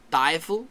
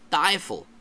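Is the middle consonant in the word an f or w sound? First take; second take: f; f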